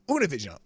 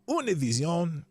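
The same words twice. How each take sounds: First: It is said with a plain English accent. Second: It is said with a French accent.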